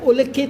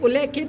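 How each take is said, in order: First: The middle syllables are said 'lli-khit'. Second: The middle syllables are said 'lle-khit'. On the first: The speaker calls it right. "होता है" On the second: The speaker calls it wrong. "गलत है"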